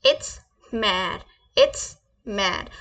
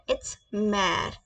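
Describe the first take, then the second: First: Mère drawn out very slowly for students; slow demo. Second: Said in the usual way. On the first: Shown as a demonstration. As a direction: stretch out mère so the class can copy it. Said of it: "मेरे pronunciation को repeat करें". (mère को बहुत धीरे खींचकर बोलना) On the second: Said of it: "mother को कैसे बोलेंगे फ्रेंच में?".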